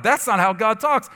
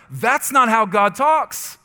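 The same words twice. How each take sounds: First: Said in the usual way. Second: Slow, emphatic, each word "That's not how God talks" spaced and hammered; declared out loud. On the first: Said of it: "I'd catch myself say it out loud". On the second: Retold or imitated. Pastor retells rebuking the lie aloud, slow and emphatic. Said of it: "I had to say so many times out loud".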